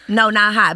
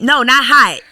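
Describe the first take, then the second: First: Said in the usual way. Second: Loud, emphatic "no, not hot"; loud denial. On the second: Shown as a demonstration. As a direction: say it louder, with emphasis.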